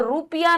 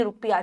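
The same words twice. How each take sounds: First: रुपया as 'roo-piya'; long oo. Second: रुपया as a quick 'ru-piya', lower; lower, quicker रुपया with short first vowel. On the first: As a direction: say रुपया wrongly with a long first vowel. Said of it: "रुपया नहीं". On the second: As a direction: clip the 'ru' in रुपया. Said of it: "छोटा हुआ आता है". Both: Shown as a demonstration.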